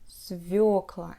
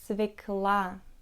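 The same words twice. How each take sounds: First: The stress is on the yo vowel. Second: The stress is not on the yo vowel. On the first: This is the standard pronunciation. The speaker calls it right. "the stress placement will always be on this letter" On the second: This is how most natives say it. The speaker calls it wrong. "most Russian people pronounce it as свекла"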